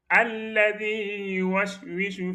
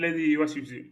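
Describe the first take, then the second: First: The word starts with an a vowel before L. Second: The word starts directly with the L sound. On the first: The speaker calls it right. "il faut dire alladhi" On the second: The speaker calls it wrong. "Il ne faut pas dire l'adi waswisu"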